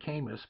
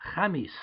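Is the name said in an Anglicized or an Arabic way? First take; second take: Anglicized; Arabic. First: The name is said with an Anglicized pronunciation. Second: The name is said with an Arabic pronunciation. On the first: This is how people locally say the name. "They pronounce it Camus" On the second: This is the name's original form. "obviously we're talking the Arabic language"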